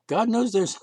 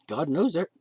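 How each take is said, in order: First: Knows hit louder and higher; stress on knows. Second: Said in the usual way. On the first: Shown as a demonstration. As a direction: lean hard on knows. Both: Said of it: "My joke".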